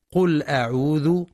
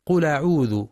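First: قل أعوذ with the hamza dropped and the lam carried over; wrong connecting hamza. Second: قل أعوذ with the lam moved onto the hamza; carried-over reading. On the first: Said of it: "كأنها همزة وصل". (قل أعوذ بهمزة وصل، قراءة خاطئة) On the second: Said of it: "على غير رواية حفص بالنقل". (قل أعوذ بالنقل على غير رواية حفص) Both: Shown as a demonstration.

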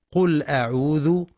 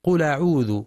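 First: قل أعوذ with the hamza of أعوذ dropped, as if a connecting hamza; wrong connecting hamza. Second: قل أعوذ with a clear glottal stop on the hamza of أعوذ; correct cut hamza. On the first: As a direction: demo the mistake: "قل أعوذ" with the hamza swallowed. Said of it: "كأنها همزة وصل". (قل أعوذ بهمزة وصل خاطئة) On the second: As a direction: pronounce "أعوذ" with a full hamza, the lam of "قل" still. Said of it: "والصواب تحقيقها". (قل أعوذ بتحقيق همزة القطع) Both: Shown as a demonstration.

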